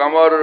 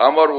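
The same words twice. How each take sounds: Both takes have the same delivery.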